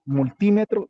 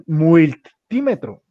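First: Said in the usual way. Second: "multímetro" slowly, with an extra i as "muiltímetro"; misspelling read aloud. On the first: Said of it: "con tilde en la I". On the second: Shown as a demonstration. Teacher reads the student's typo aloud, "multímetro" mispronounced as "muiltímetro". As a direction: say "multímetro" as typed, slowly, "muil-tímetro". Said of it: "Ahí tú dices multímetro".

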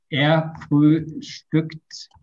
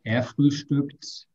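First: Er frühstückt very slow and louder, Er leaning; slow practice demo. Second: Er frühstückt again, slower and calmer; slower repeat. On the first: Teacher drilling a student on the verb, slow and emphatic. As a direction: model it slowly for the student to copy. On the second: Teacher repeating the drill for a student, slow. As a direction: repeat it once more for the student. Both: Shown as a demonstration. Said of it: "Ya vamos a entrenarlo".

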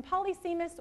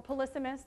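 First: Polysemous said PAH-lee-SEE-mus; preferred pronunciation. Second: Polysemous said puh-LIS-uh-mus; alternative pronunciation. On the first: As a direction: main stress on SEE in polysemous. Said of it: "I like to say polysemous". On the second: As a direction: main stress on LIS in polysemous. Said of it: "the other word sounds like something else". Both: Shown as a demonstration.

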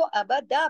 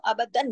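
First: अबदा with open long daa, no n; correct pausal ending. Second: अबदन closing on a short -dan; wrong nunated ending. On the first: Teacher gives the right pausal form, अबदा ending in long aa. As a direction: finish अबदा on a held aa. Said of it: "अबदा पढ़ा जाएगा". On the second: Teacher quotes the wrong pausal form, अबदन with an n ending. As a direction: end अबदन on an n. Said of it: "अबदन नहीं पढ़ेंगे". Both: Shown as a demonstration.

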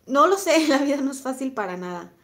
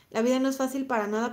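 First: A burst of laughter, then the words still laughing; rueful laugh through the words. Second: Said in the usual way. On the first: Real, not acted. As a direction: laugh it off, loud and high. Laughs at a viewer's comment.

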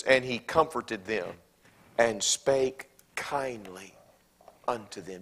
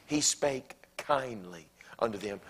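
First: Slow emphatic reading. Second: Said in the usual way. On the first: Shown as a demonstration. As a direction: draw out spake kindly, very slow. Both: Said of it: "Do you see it?".

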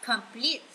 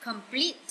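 Both takes have the same delivery.

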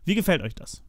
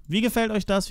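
First: Said in the usual way. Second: Excited repeat. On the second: Real, not acted. Repeats question much higher.

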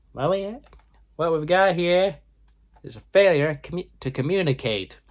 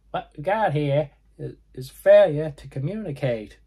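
First: High, nasal movie-quote voice. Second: High nasal quote, said properly this time. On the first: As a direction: squeeze it up high through the nose. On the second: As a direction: go high and nasal on the famous line. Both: Retold or imitated. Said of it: "very high, nasally voice".

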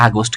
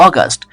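First: Said in the usual way. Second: অগাস্ট as "aw-gast", open first vowel; corrected August. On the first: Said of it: "এই যে আগস্ট বলি আমরা". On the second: Shown as a demonstration. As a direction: start অগাস্ট on a rounded "aw". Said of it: "কিন্তু উচ্চারিত হবে". (অগাস্ট, শুরুতে "অ" উচ্চারণ)

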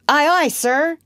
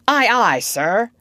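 First: High, loud echo of the order; eager, raised-pitch acknowledgement; obedient sailor's reply. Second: Loud, higher demonstration of an order; firm, louder naval response; commanding model phrase. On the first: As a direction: answer the captain like a keen recruit. John obediently repeats Peter's phrase. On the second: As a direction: show a recruit how to answer the captain. Peter models the required answer. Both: Acted.

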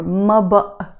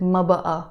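First: Said in the usual way. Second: بقى drawn into two vowels, "ba-a"; alternative pronunciation. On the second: Shown as a demonstration. Teacher shows another way of saying it: بقى as "ba-a". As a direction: add a second "a" to the end of بقى. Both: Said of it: "And sometimes we pronounce it".

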